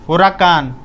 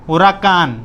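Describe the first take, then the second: Both takes have the same delivery.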